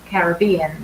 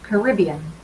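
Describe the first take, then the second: First: It is said with a British pronunciation. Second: It is said with an American pronunciation. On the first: "we are from the U K, or uh, Paul is from Ireland, so we say Caribbean" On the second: "but Americans say Caribbean"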